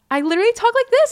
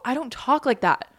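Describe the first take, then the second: First: Very high, loud, quick squeal; raised high voice. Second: Said in the usual way. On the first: Shown as a demonstration. Host showing how they greet strangers, raised high voice. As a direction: send the voice sky-high and loud. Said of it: "raising my voice a hundred octaves".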